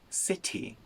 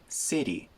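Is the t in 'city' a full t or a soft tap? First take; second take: full t; soft tap. First: The t in the middle is a full t. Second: The t in the middle is a quick tap. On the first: This is the British pronunciation. "In the United Kingdom, it's city" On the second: This is the American pronunciation. "in the U S, we weaken that t to a little tap"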